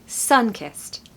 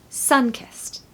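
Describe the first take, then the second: No difference in how they are said.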